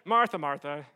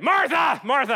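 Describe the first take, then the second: First: It is said in a gentle, kind tone. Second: It is said in a harsh, rebuking tone.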